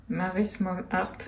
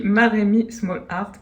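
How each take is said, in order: First: « Marie Small Art » dit en trébuchant sur « Marie » au lieu de Marémi; « Marie » prononcé à tort, hésitant et plus bas; nom écorché. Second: « Marémi » bien articulé, ma-ré-mi, accent sur le début; nom corrigé. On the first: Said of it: "je bafouille". (le nom « Marie Small Art » mal dit, voix basse) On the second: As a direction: reprendre « Marémi Small Art » nettement et sûr de soi. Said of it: "Ah voilà, c'est ça". (« Marémi » dit correctement, appuyé) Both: Real, not acted.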